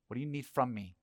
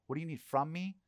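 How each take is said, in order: First: Said in the usual way. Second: Me lifted high on a rising question; What do you need from me? with me rising and stressed. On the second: Shown as a demonstration. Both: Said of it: "Think about that".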